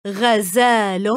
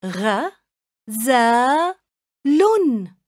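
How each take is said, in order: First: Said in the usual way. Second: غزال split into separate syllables غ، زا، لن. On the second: Shown as a demonstration. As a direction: say غزال as three clipped beats with pauses. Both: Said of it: "قطعوا الكلمة إلى مقاطع صوتية".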